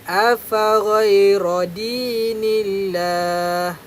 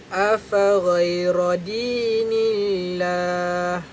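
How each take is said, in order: The two takes are said the same way.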